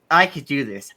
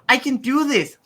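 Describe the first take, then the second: First: It is said in a calm, relaxed way. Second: It is said in an energetic, enthusiastic way. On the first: The speaker sounds relaxed about the task. The speaker calls it wrong. "the voice actors were saying these lines relatively chill" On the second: The speaker sounds eager and determined. The speaker calls it right.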